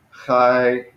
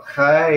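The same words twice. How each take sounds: First: "Hi" emphasized, going slightly down; falling accent. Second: "Hi" lifted up in pitch; rising accent. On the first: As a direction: stress "Hi" and let the tone drop a little. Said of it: "a little bit going down". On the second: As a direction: say "Hi" with the tone lifting upwards. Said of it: "it's like lifting it up". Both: Shown as a demonstration.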